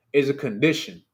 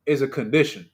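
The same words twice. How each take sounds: The two takes are said the same way.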